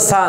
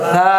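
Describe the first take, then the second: First: The consonant is a pressed, hissing s sound. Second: The consonant is a soft th sound. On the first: The speaker calls it wrong. "আপনি যদি চাপ দেন তাহলে সিনের উচ্চারণ হয়ে যাবে সা। ... এই জন্য সা না" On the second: The speaker calls it right. "এটা হবে সা।"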